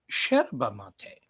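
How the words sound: It is said the Argentine way. "in Argentina ... they say yerba mate"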